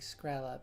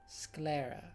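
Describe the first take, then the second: First: The word is said with an 'skr' sound. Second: The word is said with an 'skl' sound. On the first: The speaker calls it wrong. "I've been thinking Skrella" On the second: The speaker calls it right. "but it's Sclera"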